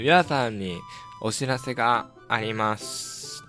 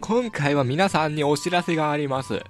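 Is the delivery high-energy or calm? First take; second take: calm; high-energy. First: It is said with calm, normal energy. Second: It is said with very high energy.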